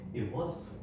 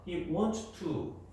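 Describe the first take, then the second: First: The s sound in wants is barely heard. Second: The s sound in wants is fully pronounced. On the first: The speaker calls it right. "이 S는 들릴랑 말랑" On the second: The speaker calls it wrong. "이렇게 발음하면 좀 이상해요"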